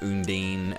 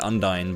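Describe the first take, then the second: First: The second syllable does not sound like 'dine'. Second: The second syllable sounds like 'dine'. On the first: "I understand like Undine" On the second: "un and then dine, as in to dine out"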